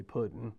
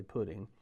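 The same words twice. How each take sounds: First: "pudding" with a clear d and a short "-en" ending; own pronunciation. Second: "pudding" said with a flapped t-like middle and a full "-ing"; common pronunciation. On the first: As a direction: say "pudding" as "pud-den". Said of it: "I say pudding". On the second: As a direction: say "pudding" as "pu-ting". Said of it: "Most people say pudding". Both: Shown as a demonstration.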